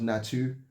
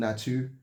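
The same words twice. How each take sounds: First: It is pronounced with French sounds. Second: The same.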